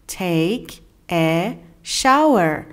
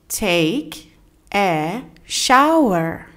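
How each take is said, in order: Both takes have the same delivery.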